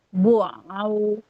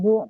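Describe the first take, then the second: First: The sound stays in the throat, not nasal. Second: The sound goes up into the nose. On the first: The speaker calls it right. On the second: The speaker calls it wrong.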